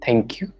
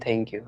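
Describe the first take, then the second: First: It is said loudly and clearly. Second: It is said quietly and meekly.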